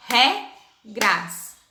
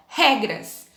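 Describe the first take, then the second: First: Regras broken into re, pause, gras; split into syllables. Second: Said in the usual way. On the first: Shown as a demonstration. Teacher demonstrating syllable division, regras split as re-gras. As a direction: say regras in two separate beats. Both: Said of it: "vai separar as sílabas".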